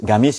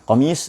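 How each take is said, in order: First: It is said in Yemeni dialect. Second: It is said in standard Arabic.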